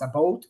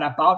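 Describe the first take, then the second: First: It is said in a Canadian accent. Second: It is said in a non-Canadian accent. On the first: "Canadian accent, ... it's about" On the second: "it's not about"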